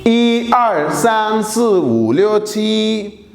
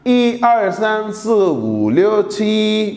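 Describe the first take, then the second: No difference in how they are said.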